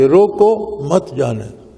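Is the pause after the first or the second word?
first. The pause comes after the first word.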